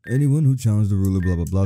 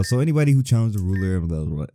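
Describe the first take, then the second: First: Fast, lightly voiced old man. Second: Said in the usual way. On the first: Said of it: "am I getting this old man". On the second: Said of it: "restating in own voice".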